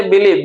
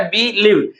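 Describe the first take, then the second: First: Said in the usual way. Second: believe broken into two parts, बि and लीव; teacher dividing believe after बि; split into syllables. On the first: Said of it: "believe को तोड़ते हैं". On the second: Shown as a demonstration. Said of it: "दो part पे टूटता है".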